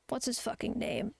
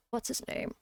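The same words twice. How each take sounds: First: Said in the usual way. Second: Muttered under the breath, unvoiced and soft; whispered to self. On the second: Real, not acted. Streamer trying to recall a name, whispering. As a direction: half-whisper while trying to remember.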